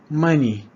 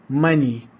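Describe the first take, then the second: Both takes have the same delivery.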